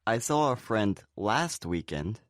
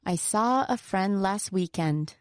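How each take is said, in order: First: LAST emphasised in "I saw a friend last weekend"; stress on LAST. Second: SAW, FRIEND and WEEKEND stressed, "last" lighter; stress on content words. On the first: Speaker making clear which weekend it was, stress on LAST. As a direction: lean on "last" to single out that weekend. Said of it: "make it clear that it was last weekend". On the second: Teacher showing sentence rhythm, stress on content words. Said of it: "are the content words". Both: Shown as a demonstration.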